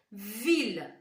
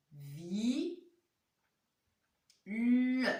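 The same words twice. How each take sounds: First: Said in the usual way. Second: "Vi-, le" with a long "vi", a pause, then "le"; syllable-by-syllable reading. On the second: Shown as a demonstration. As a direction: sound out "Vi-, le" slowly in two separate parts. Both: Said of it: "Voilà comment ça se lit".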